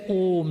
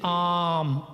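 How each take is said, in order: First: The vowel sounds like 'oh'. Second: The vowel sounds like 'ah'. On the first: "they don't say Om" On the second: "they say Am"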